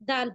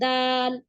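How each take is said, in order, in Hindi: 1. पहला स्वर सादा और छोटा रखा जाता है। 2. पहला स्वर खींचकर लंबा बोला जाता है। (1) "सिर्फ क्या कर रहे हैं? दाल पढ़ रहे हैं।" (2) "दाल ऐसे नहीं पढ़ रहे हैं ना, अलिफ की आवाज को खींच नहीं रहे हैं हम"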